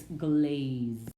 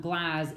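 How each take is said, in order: First: "glaze" with a drawn-out "ay"; slow long-vowel "glaze". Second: "glaze" misread as "glazz", short A as in cat; short-vowel misreading of "glaze". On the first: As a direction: let the A in "glaze" say its name. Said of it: "vowel will have the long sound". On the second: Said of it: "I know it's not glaze". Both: Shown as a demonstration.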